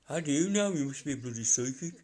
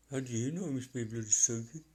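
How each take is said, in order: First: A light Birmingham accent, voicing the bloke; quoting a Brummie bloke in his accent. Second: Quick light Birmingham accent imitation; Brummie accent again. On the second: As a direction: mimic the Brummie bloke. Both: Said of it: "it's just his accent".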